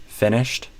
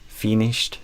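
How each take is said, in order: Both takes have the same delivery.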